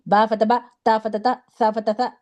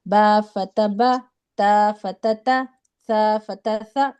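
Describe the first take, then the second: First: Quick "با فتح با" with a jolt cutting each final vowel short; jerky reading. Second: Slow, even "با فتح با", final vowel neither jerked nor dragged; correct even reading. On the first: Teacher showing students how not to read, with abrupt jerks. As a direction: jerk through "با، تا، سا", no lingering. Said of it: "جھٹکا دے کر نہیں پڑھتے". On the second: Teacher modelling correct reading for students, unhurried and even. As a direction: read "با، تا، سا" measured, with short open endings. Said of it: "بس نہ کھینچنا ہے". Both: Shown as a demonstration.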